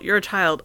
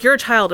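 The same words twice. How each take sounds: First: Said in the usual way. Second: Put-on louder, higher, a kid's stubborn comeback; childish retort. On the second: Niece answering back in argument.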